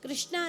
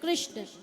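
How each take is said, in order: First: The word ends with a long final 'aa' vowel. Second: The word ends on the consonant, no final vowel. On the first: The speaker calls it wrong. "कृष्णा नहीं" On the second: The speaker calls it right. "शुद्ध बोल के देखना"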